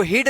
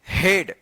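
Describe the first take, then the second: First: हीड with a long "ee" vowel; wrong reading of head. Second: हेड with "eh" vowel, set apart, falling; correct reading of head. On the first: Teacher shows the reading to avoid, हीड with "ee". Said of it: "नहीं पढ़ते हैं". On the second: Teacher gives the exception's proper reading, हेड with "eh". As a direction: say हेड alone with an "eh". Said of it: "इसको पढ़ते हैं". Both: Shown as a demonstration.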